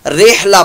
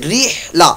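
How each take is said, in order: First: The first vowel sounds like 'ay'. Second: The first vowel sounds like 'ee'. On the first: The speaker calls it wrong. "तलफ़ुज़ इसका मजहूल कर देते हैं, रेहला पढ़ देते हैं" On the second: The speaker calls it right. "री की आवाज आई"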